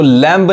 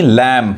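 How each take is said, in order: First: लैम्ब with an audible B at the end; B pronounced. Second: लैम ending on M, no B; silent B. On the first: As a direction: sound the B after M in लैम्ब. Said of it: "इसको लैम्ब नहीं". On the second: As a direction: close लैम on the M sound. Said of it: "यानी बी silent है". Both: Shown as a demonstration.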